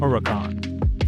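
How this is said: The name is said with an American accent.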